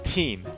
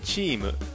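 First: The word begins with a plain t sound. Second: The word begins with a ch sound. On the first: It is the English word. "実際に口にしてみてチーとなっていないかセルフチェック" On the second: It is the Japanese loanword form. "前半で日本語訳の説明としてカタカナ語を導入します"

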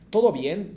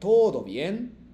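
First: The o in todo is short and clipped. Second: The o in todo is drawn out longer. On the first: The speaker calls it wrong. "todo bien ではなくて" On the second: The speaker calls it right. "O にこう伸ばす感じですね"

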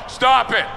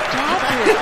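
First: It is read out flatly, without feeling. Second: It is said in a teasing, playful way.

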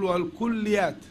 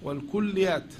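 Both takes have the same delivery.

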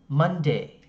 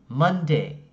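The two takes are said the same way.

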